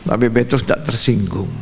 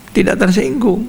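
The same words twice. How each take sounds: First: Said in the usual way. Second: "Tidak tersinggung" lifted high in pitch; emphatic repeat. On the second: Real, not acted. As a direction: repeat "Tidak tersinggung" higher to drive it home. ("Tidak tersinggung" ditekankan dengan nada tinggi)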